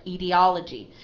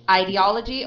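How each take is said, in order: First: IDEOLOGY starting with "ih" or "ee"; short I. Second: IDEOLOGY starting with "eye"; long I. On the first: Teacher shows a student two readings, IDEOLOGY with short I. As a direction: say "ee-dee-OL-uh-jee", no "eye" sound. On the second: Teacher shows a student two readings, IDEOLOGY with long I. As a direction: say "eye-dee-OL-uh-jee", long I first. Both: Shown as a demonstration. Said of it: "as a long I or a short I".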